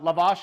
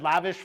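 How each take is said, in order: First: The second syllable sounds like 'ash'. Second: The second syllable sounds like 'ish'. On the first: The speaker calls it right. "No, it's a lavash is actually a type of bread" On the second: The speaker calls it wrong. "I said lavish flatbread, like like living the lavish lifestyle"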